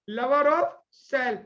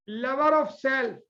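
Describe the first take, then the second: No difference in how they are said.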